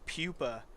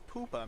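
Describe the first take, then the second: First: The word is pronounced the American way. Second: The word is pronounced the Latin American way. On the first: The speaker calls it wrong. "It's such an American way to pronounce it" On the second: The speaker calls it right. "You're in Latin America. Just pronounce it poopa"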